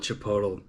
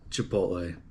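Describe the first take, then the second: First: "Chipotle" said as chi-POH-tul; deliberately wrong chi-POH-tul for "Chipotle"; joke mispronunciation. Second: Said in the usual way. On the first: Shown as a demonstration. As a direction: end "Chipotle" in -tul, like bottle. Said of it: "I call it Chipotle". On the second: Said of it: "I know it's pronounced Chipotle".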